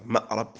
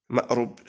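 First: مأرب said with "a" after the ra, ma'rab; fatha on the ra. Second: مأرب said with "u" after the ra, ma'rub; damma on the ra. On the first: Teacher marking an irregular verbal noun, fatha in مأرب. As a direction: sound مأرب as ma'-RAB. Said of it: "وجاء بالفتح". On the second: Teacher marking an irregular verbal noun, damma in مأرب. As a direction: sound مأرب as ma'-RUB. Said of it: "بالضم". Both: Shown as a demonstration.

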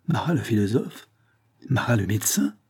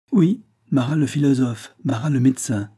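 First: "Marat le philosophe" and "Marat le médecin" rising as questions; questioning tune. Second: "Oui, Marat le philosophe" starting high and falling; affirming tune. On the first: Man queries the stranger's identity, questioning rise on "philosophe" and "médecin". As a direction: lift the ends of "philosophe" and "médecin". Asks, later echoed as confirmation. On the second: Provost confirms who the stranger is, falling tune on "philosophe" and "médecin". Confirms the questions just asked. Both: A narrator's reading.

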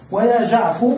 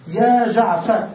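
First: "جعفو" with the final r dropped, ending on u; clipped name Jaafu. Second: "يا جعفر" slow, ending clearly on the r; teacher calling out "يا جعفر" in full; full name Jaafar. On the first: Teacher to students: clipped "جعفو" without the r. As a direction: cut the name short: "جعفو". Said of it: "على لغة من لا ينتظر". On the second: Teacher to students: "يا جعفر" drawn out, full form. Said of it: "يا جعفر على لغة من ينتظر". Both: Shown as a demonstration.

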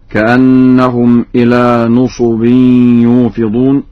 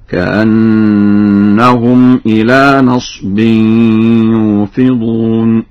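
First: نصب said nusubin, u on noon and sad; standard nusub reading. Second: نصب said nasbin, a on noon, silent sad; very slow chant, one closed syllable nas in نصب; Warsh nasb reading. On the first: Teacher quotes the verse before Warsh, nusub vowels. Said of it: "بفتح النون وإسكان الصاد". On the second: Teacher demonstrates Warsh's reading, nasb vowels. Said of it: "بفتح النون وإسكان الصاد هكذا". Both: Shown as a demonstration.

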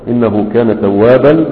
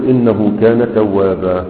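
First: "توابا" said with its full tanween, ending "توابن"; with nunation. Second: "توابا" ending on a long open alif, no nun; pausal alif. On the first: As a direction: keep the nun sound on "توابا". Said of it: "هي كانت منونة". ("توابا" بالتنوين كاملا) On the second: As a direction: stretch the final alif of "توابا" and drop the nun. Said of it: "هتجعلها ألفا وتقول". (وقف على "توابا" بالألف) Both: Shown as a demonstration.

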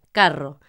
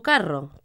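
First: Carro set apart, lower and a bit louder, falling; carro on its own, stressed and falling; emphasized word. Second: Said in the usual way. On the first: Shown as a demonstration. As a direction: repeat carro alone as a clear example. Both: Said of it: "que es como llamamos al coche en Argentina".

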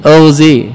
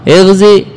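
First: اغزي opening on a rounded "u" vowel, "ughzi"; damma on hamza. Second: اغزي opening on an "i" vowel, "ighzi"; kasra on hamza. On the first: Teacher contrasts the two allowed forms, اغزي as "ughzi". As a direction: say اغزي as "UGH-zee". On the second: Teacher contrasts the two allowed forms, اغزي as "ighzi". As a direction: say اغزي as "IGH-zee". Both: Shown as a demonstration. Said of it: "يجوز فيه وجهان".

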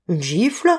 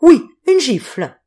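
First: A stunned echoing question, rising at the end; amazed disbelieving echo; stupefied. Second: Higher, louder, slower furious insistence; a clerk boiling with rage, stressing oui; enraged. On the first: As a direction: repeat it as if you can't believe it. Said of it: "interrogea Mérentin stupéfait". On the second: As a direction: spit out the word gifle in outrage. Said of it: "dans un extraordinaire état de rage". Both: A narrator's reading.

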